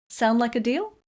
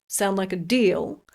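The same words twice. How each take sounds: First: The voice rises sharply on deal. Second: The voice falls on deal.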